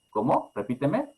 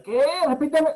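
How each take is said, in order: First: Gentle request. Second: Much higher and loud, clipped; harsh snapped demand. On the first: Parent calmly asking child to repeat, gentle rise. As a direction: ask kindly for a repeat. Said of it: "Es la forma, la forma equilibrada". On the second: Parent impatiently demanding child repeat, harsh loud snap. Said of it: "en lugar de". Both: Shown as a demonstration.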